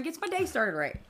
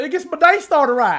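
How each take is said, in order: First: Slipping into a Southern twang; southern accent. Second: High, hammed-up Southern twang; mock southern accent. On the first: Real, not acted. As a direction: say it with a Southern lilt. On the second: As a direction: tease her with an exaggerated Southern accent. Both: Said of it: "she went all southern on that".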